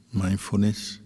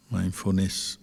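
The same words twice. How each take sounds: The two takes are said the same way.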